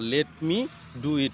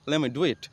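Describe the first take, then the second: First: 'Let me' is said as two full words. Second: 'Let me' is run together quickly as 'lemme'.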